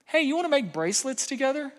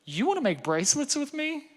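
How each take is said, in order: First: Put-on higher, bright offer to a teen; cheerful invitation. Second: Higher, amazed echo of the offer; surprised delight. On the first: Dad inviting daughter to make bracelets, upbeat higher offer. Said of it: "I said". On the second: Retold or imitated. Daughter surprised dad wants to make bracelets, higher amazed. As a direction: daughter can't believe it, pleasantly surprised. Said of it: "And she's like".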